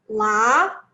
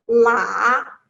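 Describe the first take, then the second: First: It is said with the second tone. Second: It is said with the third tone.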